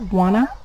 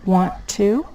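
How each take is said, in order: First: The words blend into a reduced form. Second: The words are said fully and separately.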